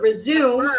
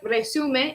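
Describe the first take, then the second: First: It is pronounced as the English verb. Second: It is pronounced as the Spanish word. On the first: "or resume, the verb in English" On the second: "It looks like resume if you speak Spanish"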